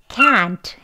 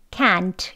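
First: The word is said strongly and in full. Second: The word is said weakly and reduced. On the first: The speaker calls it right. "can't 해야 합니다" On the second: The speaker calls it wrong. "약하게 발음하는 can't라고 하면 안 되고요"

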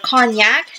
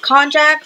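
First: It is said like the liquor cognac. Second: It is not said like the liquor cognac.

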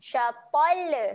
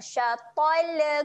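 First: The final L is released with a bouncing vowel. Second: The final L is released with a bouncing vowel.

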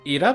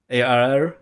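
First: It is read with Polish pronunciation. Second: It is read with English pronunciation. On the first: The speaker calls it wrong. "Ira po polsku?" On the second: The speaker calls it right. "z tym właśnie czytanym w języku angielskim"

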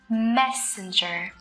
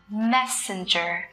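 First: The first syllable is clearly stressed. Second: The first syllable is clearly stressed.

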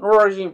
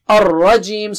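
First: The R is a light English-style R. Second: The R is a thick, low, rolled R. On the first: The speaker calls it wrong. "Don't say Minash Shaitani Ar-Rajim, Ar-Rajim. No" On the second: The speaker calls it right. "Ra is thick here. It is not English R"

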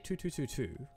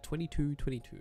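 First: The number is said as one ungrouped run. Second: The number is said grouped into pairs. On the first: The speaker calls it wrong. "Don't say 2222" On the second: The speaker calls it right. "You say them in pairs or triples"

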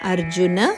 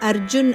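First: The name ends in a vowel sound. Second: The name ends in a bare consonant. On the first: The speaker calls it right. "ಅರ್ಜುನ ಉವಾಚ" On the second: The speaker calls it wrong. "ಅರ್ಜುನ್ ಅಲ್ಲ"

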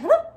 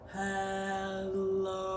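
First: It is said very fast. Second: It is said very slowly.

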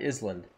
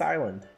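First: The word is said with an s, like is-land. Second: The word is said with a silent s. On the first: The speaker calls it right. "Why is it not Island?" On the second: The speaker calls it wrong. "Why is it pronounced island?"

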